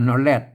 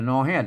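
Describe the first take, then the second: First: The second syllable begins with an r sound. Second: The second syllable begins with an h sound. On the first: This is the Standard Thai pronunciation. The speaker calls it wrong. "นอแรดไทยนะ" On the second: This is the Northern Thai (Lanna) pronunciation. The speaker calls it right. "นอแฮดนะครับไม่ใช่นอแรดนะ"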